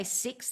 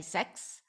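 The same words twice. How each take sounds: First: Said in the usual way. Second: "sex" as the New Zealand way of saying six; "sex", short e in place of i; New Zealand vowel. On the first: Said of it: "they don't say". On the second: Shown as a demonstration. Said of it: "they say sex".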